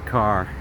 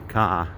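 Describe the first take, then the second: First: The R at the end is pronounced. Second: The R at the end is dropped.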